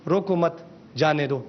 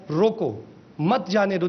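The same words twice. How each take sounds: First: "روکو مت" as one phrase, pause, then "جانے دو"; pause after مت. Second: "روکو", pause, then "مت جانے دو" as one phrase; pause after روکو. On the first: Presenter showing officials the other sense of the sentence, pause after "مت". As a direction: run "روکو مت" together, break, drop lower on "جانے دو". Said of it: "Cama مت کے بعد لگا دیں". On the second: Presenter showing officials how a comma changes the sense, pause after "روکو". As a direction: break right after "روکو", joining "مت" to "جانے دو". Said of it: "روکو کے بعد کاما لگائے". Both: Shown as a demonstration.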